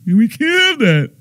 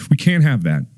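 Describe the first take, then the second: First: Much higher, strained mock panic; high mock alarm. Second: Said in the usual way. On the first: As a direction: squeak it out in mock horror. Repeated line, first take.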